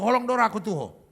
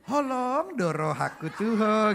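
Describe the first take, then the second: First: It is said bluntly, without sweetness. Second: It is said in a sweetened, tender way.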